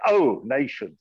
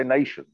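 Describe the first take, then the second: First: Mock formal. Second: Said in the usual way. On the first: Shown as a demonstration. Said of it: "You say". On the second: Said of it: "No, you say".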